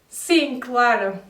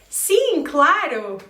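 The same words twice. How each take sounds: First: It is said in a sarcastic, unenthusiastic tone. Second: It is said in an excited, enthusiastic tone. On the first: They are actually saying no. "a total different tone, like this" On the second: They honestly want to go. "with an excited tone"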